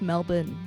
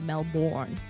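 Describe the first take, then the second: First: It is said with an Australian pronunciation. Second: It is said with an American pronunciation. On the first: The speaker calls it right. "caught on that it's Melbourne" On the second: The speaker calls it wrong. "not Melbourne"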